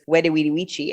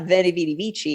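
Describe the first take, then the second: First: The words begin with a W sound. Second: The words begin with a V sound. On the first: The speaker calls it right. "the V ... is pronounced as a W" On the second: The speaker calls it wrong. "not Veni Vidi Vici"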